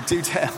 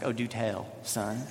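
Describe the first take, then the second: First: Chuckling through the words; laughing repeat. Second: Low, quiet and dry, lightly teasing; dry mock interest. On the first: Real, not acted. Pastor repeating his joke to church, laughing. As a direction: laugh at your own line. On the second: Dad mock-humoring his nine-year-old son, low and dry. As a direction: humor the kid with mock curiosity. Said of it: "And I was like".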